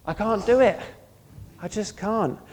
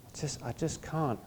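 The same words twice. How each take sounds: First: A raised, frustrated admission of failure; emphatic, loud confession of helplessness; exasperated cry of defeat. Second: Quiet surrender. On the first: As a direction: throw up your hands and cry out that you can't. Preacher voicing a defeated believer. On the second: Quiet surrendered take of the same words. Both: Acted.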